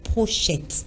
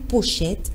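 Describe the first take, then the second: First: An r sound follows the opening p sound. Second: It begins with a plain p sound, no r. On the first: The speaker calls it wrong. "et non prochette" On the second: The speaker calls it right. "C'est le mot pochette"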